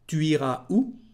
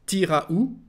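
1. Se dice despacio y con cuidado, pronunciando cada palabra completa. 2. Se dice de forma casual, con la primera palabra acortada. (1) "Primero lo voy a leer, lo de siempre, tranquilo" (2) "como lo diría en francés"

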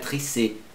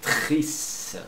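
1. Uma vogal extra é pronunciada depois do s. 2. Termina no som de s, sem vogal. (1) "Não é tricê"

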